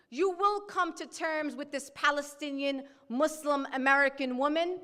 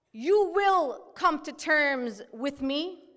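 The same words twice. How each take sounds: First: Said in the usual way. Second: "you will come to terms with me" slow, pressing hard on "you"; stress on you. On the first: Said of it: "repeated declaration". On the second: Shown as a demonstration. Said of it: "emphatic declaration".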